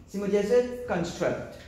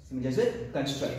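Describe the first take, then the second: First: Slow emphatic model. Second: Said in the usual way. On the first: Shown as a demonstration.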